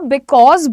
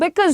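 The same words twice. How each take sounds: First: The word is said slowly and fully. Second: The word is said quickly and clipped. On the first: "आप बिकॉज बोल सकते हो" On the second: "जल्दी जल्दी में वो बिकॉज हो जाता है"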